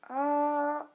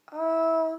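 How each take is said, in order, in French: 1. Le ton tombe bas, puis remonte. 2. Le ton reste haut et plat. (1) "le troisième ton, il est descendant, puis montant" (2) "le premier ton est haut et plat"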